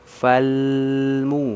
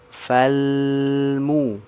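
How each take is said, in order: Both takes have the same delivery.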